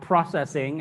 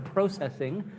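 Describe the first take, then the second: First: It is said with an American pronunciation. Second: It is said with a Canadian pronunciation. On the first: "as we Americans say" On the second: "as they like to say in Canada"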